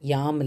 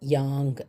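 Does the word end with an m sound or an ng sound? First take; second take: m; ng. First: The word ends with an m sound. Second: The word ends with an ng sound. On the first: The speaker calls it wrong. "யாம் இல்லை" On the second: The speaker calls it right. "அனுசுரா வந்து இங்கா மாறும்"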